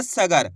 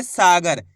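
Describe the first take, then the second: First: सगर with a short first a; no stretched aa in सगर; wrong short vowel. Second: सागर with a long stretched aa in the first syllable; long first vowel in सागर; drawn-out vowel. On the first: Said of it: "ऐसे नहीं पढ़ना". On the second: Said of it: "सा को खींच के पढ़ेंगे". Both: Shown as a demonstration.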